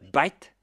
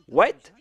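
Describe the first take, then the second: First: The word begins with a B sound, Indian-style. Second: The word begins with a W sound.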